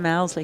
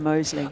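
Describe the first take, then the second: First: The first syllable sounds like 'mouse'. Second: The first syllable sounds like 'mose'. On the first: This is the teammates' nickname-based version. The speaker calls it wrong. "You call him Mousley" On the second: This is how the family says it. The speaker calls it right. "I call him Mosley"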